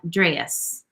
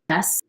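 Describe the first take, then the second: First: The vowel is raised, fronted and diphthongized. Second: The vowel has its usual standard quality.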